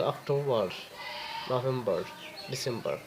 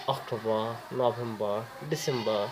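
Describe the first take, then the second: First: অক্টোবর, নভেম্বর, ডিসেম্বর each with a clear final r; American month names. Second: অক্টোবর, নভেম্বর, ডিসেম্বর each ending "-ba" with no r; British month names. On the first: Teaching learners American অক্টোবর নভেম্বর ডিসেম্বর, r sounded. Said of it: "শেষের আরটা উচ্চারণ করে". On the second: Teaching learners British অক্টোবর নভেম্বর ডিসেম্বর, r dropped. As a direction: list the months dropping every final r. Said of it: "হ্যাঁ, এইভাবে বলে". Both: Shown as a demonstration.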